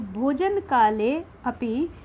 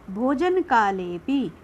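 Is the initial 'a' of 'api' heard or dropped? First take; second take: heard; dropped. First: The words are separate and the 'a' is heard. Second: The words are joined and the 'a' is dropped. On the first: "जब हम इसको अलग करते हैं ना, तब इसको बोला जाता है" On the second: "जब ये इसके साथ जुड़ा हुआ होता है तब उसे नहीं बोलते"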